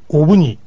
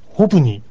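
First: The word begins directly with a vowel. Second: The word begins with an h sound. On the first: "この最初のH が落ちて発音されます" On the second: "H をつけて発音してもいいし"

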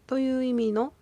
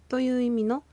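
No difference in how they are said.

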